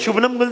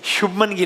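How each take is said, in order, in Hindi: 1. पहला नाम n-a-m ध्वनियों से खत्म होता है। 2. पहला नाम m-a-n ध्वनियों से खत्म होता है। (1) "शुभनम गिल तो नहीं है ना" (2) "शुभमन गिल ही है"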